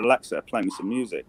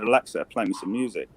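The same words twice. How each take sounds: First: It is said in a put-on American accent. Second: It is said in a put-on American accent.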